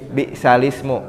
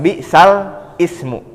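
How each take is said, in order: First: The words run together without a break. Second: The second word starts separately after a break. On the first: The speaker calls it right. "hanya dibacanya jadi bisalismu" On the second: The speaker calls it wrong. "bukan bisal ismu"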